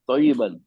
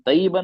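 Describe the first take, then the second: First: The first consonant is heavy and resonant. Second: The first consonant is light and thin. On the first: The speaker calls it right. "आवाज भारी होती है और अंदर ही अंदर गूंजती है" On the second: The speaker calls it wrong. "तय्यबन नहीं है"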